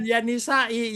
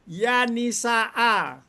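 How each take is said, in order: First: The word ends with an i vowel. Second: The word ends with an a vowel. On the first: The speaker calls it wrong. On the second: The speaker calls it right. "Nisa'an itu adalah setelah ya"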